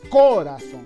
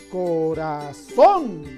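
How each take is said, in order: First: The stress is on the first syllable. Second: The stress is on the last syllable. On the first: The speaker calls it wrong. "no decimos corazón, por lo tanto no puede ser esdrújulo" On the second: The speaker calls it right. "Nosotros decimos corazón"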